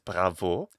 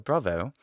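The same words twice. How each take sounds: First: It is said with a French pronunciation. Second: It is said with a posh British pronunciation. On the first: "the French modern pronunciation is bravo" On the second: "something a little bit more British like"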